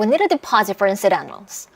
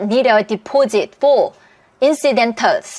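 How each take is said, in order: First: It is spoken quickly with words run together. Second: It is spoken slowly and clearly, word by word. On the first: It is how native speakers actually say it. "이렇게 너무 빠르게 말을 하니까" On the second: It would be easy for a learner to catch. "이렇게 소리 내주면 우리는 리스닝이 하나도 안 어려워요"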